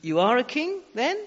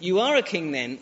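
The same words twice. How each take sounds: First: "You are a king then?" asked as a question, pitch rising on "then". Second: "You are a king then" said as a flat statement, pitch falling on "then". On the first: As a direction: ask it, lifting "then" at the end. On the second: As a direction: state it as a fact, letting "then" drop. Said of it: "It's a question mark and also a statement". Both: Shown as a demonstration.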